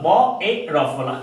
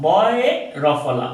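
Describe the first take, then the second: No difference in how they are said.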